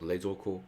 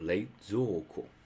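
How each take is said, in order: First: The middle vowel is short. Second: The middle vowel is drawn out long. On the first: The speaker calls it wrong. "not le zo ko" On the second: The speaker calls it right. "There's elongate, ... but le zo ko"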